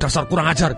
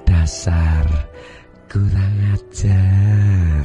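First: It is said in an angry, harsh tone. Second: It is said in a soft, tender tone. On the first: The insult is meant as an attack. "ada orang marah-marah dengan Anda" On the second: The insult loses its sting and feels affectionate. "nada suara yang paling mesra"

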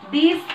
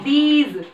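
First: The word ends with an s sound. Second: The word ends with a z sound. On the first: The speaker calls it wrong. "दीस नहीं" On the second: The speaker calls it right.

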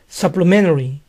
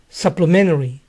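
First: The T sound is dropped. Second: The same.

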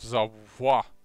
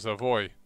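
First: The name is pronounced the French way. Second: The name is pronounced the English way. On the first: The speaker calls it wrong. "I think I also always said Savoie" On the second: The speaker calls it right. "I think it's Savoy"

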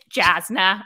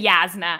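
First: The name begins with a J sound. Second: The name begins with a Y sound. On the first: The speaker calls it right. "it's Jasna" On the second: The speaker calls it wrong. "I will never say Yasna"

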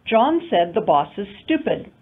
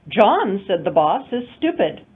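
First: The sentence is split into two phrase groups. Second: The sentence is split into three phrase groups. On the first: The boss is the one called stupid. "in two intonation units" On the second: John is the one called stupid. "three intonation units"

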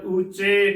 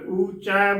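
First: The word ends in the vowel 'e'. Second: The word ends in the vowel 'ai'. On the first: The speaker calls it wrong. "ਜਾਂ ਊਚੇ ਕਰਾਂਗੇ, ਗਲਤ ਉਚਾਰਨ ਹੋਵੇਗਾ" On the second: The speaker calls it right. "ਊਚੈ ਬੋਲਣਾ ਹੈ"

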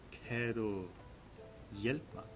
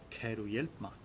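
First: The phrase is said a little more slowly. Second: The phrase is said at normal speed.

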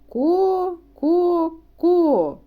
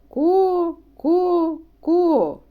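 Both takes have the same delivery.

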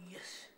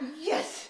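First: The word is said softly and quietly. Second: The word is said loudly and forcefully. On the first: The speaker calls it wrong. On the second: The speaker calls it right.

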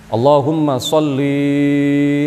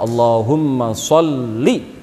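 First: The final vowel of sholli is drawn out long. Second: The final vowel of sholli is kept short. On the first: The speaker calls it wrong. "Kalau dibaca panjang" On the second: The speaker calls it right. "yang benar"

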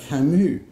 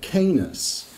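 First: The name ends in a 'moo' sound. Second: The name rhymes with 'famous'. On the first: This is the name's true form. The speaker calls it right. "the subject's true name is Albert Camus" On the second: This is a mistaken form of the name. The speaker calls it wrong. "most Americans pronounce Camus' name as Camus, to rhyme with famous"

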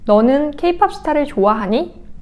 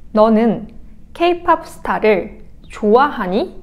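First: It is said at a quick pace. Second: It is said at a normal pace.

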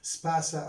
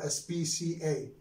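First: It is pronounced as a single word. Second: Each letter is pronounced separately. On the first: "sometimes we pronounce them as a new" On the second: "just like letters"

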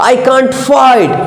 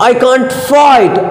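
No difference in how they are said.

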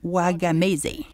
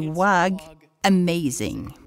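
First: The name is said with an Italian-style pronunciation. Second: The name ends sounding like the word 'amazing'. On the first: The speaker calls it wrong. "J'ai donc fait de mon mieux à l'italienne" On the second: The speaker calls it right. "Il m'a corrigé en disant que ce n'était pas Wagamese, mais Wag Amazing"

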